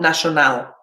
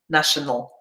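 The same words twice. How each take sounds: First: The last syllable has a full, strong vowel. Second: The last syllable has a weak schwa vowel. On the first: The speaker calls it wrong. "Not national" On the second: The speaker calls it right. "the sound we're producing is the same"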